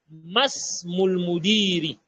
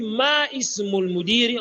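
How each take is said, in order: First: The words are linked, dropping the vowel of ismul. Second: The vowel of ismul is pronounced separately. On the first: The speaker calls it right. "on va dire masmul mudiri. ... Là, on fait la liaison" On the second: The speaker calls it wrong. "on le dit ma ismul mudiri"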